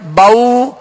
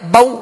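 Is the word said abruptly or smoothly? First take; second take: smoothly; abruptly. First: The word is said gently and smoothly. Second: The word is cut off with a jolt. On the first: The speaker calls it right. "नरमी के साथ और मारूफ तरीके से अदा करेंगे" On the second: The speaker calls it wrong. "ऐसे भी नहीं पढ़ेंगे"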